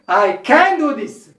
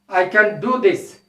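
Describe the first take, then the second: First: The word can is full and stressed. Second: The word can is reduced and unstressed. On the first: "If you want to say strongly" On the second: "if you want to say"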